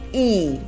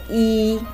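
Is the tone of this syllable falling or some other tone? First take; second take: falling; other. First: The syllable is said with a falling tone. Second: The syllable is said without a falling tone. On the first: It is one followed by a measure word. "it's pronounced as e" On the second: It is the number one on its own. "When you say just number, we say yi"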